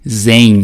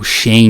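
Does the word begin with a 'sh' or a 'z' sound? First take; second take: z; sh. First: The word begins with a 'z' sound. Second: The word begins with a 'sh' sound. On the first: "o hypervisor que a AWS utiliza é esse chamado de Zen" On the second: "ou Shen, né, depende aí do que você prefere pronunciar"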